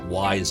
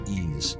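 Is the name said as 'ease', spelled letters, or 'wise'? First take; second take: wise; ease. First: The name sounds like the word 'wise'. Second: The name sounds like the word 'ease'. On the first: The speaker calls it wrong. "I almost called it wise again" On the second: The speaker calls it right. "it's actually ease"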